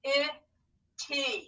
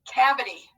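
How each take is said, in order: First: Slow, syllable by syllable; scooping the word in parts; scooped syllables. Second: Said in the usual way. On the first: Shown as a demonstration. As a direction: sound out each syllable slowly. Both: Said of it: "scoop and read along with me".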